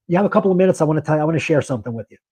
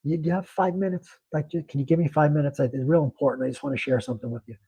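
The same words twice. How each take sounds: First: Fast, offhand and careless, rattled off; couldn't care less. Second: Softer, gentle plea that it really matters; sincere and earnest. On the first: Banker showing the wrong way to ask a customer, careless and rushed. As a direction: toss it away as if it doesn't matter. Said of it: "You're not saying it like you couldn't care less". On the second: Banker showing how to win a customer's five minutes, soft and sincere. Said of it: "You're saying it like". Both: Shown as a demonstration.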